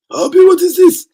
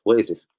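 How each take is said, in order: First: Very high, loud mock outrage; hammed-up, high-pitched disbelief; outraged put-on character. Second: Said in the usual way. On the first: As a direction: shriek the question in a put-on voice. Same question in put-on outraged voice.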